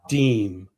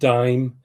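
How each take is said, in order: First: The vowel sounds like the one in 'team'. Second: The vowel sounds like the one in 'time'. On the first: The speaker calls it right. "Deem. I'm sorry" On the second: The speaker calls it wrong. "I pronounce it dime"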